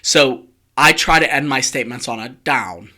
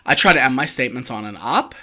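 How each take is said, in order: First: The voice falls at the end. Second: The voice rises at the end.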